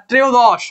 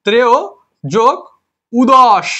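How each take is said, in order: First: Said in the usual way. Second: "ত্রেয় যোগ উদস" in separate pieces, an extra u opening "উদস"; wrongly split word. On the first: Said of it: "কখনো উচ্চারণ হয় না?". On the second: Shown as a demonstration. Teacher showing students an impossible split of ত্রয়োদশ, wrongly split word. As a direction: break it into "ত্রেয়", "যোগ", "উদস", pausing between. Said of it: "ত্রেয় যোগ উদস কখনো উচ্চারণ হয়?".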